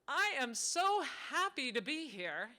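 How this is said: The voice sounds cheerful and positive. The speaker is truly glad to be there.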